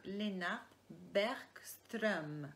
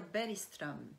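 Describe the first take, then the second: First: "Bergström" drawn out slowly with a hard g; "Bergström" with the g sounded as a hard k; careful name pronunciation. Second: "Bergström" with the g softened to an i sound; Swedish-style pronunciation. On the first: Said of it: "C'est comme ça qu'on devait le prononcer". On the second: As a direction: say Bergström as "Beri-ström". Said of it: "à la suédoise, ça devrait dire". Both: Shown as a demonstration.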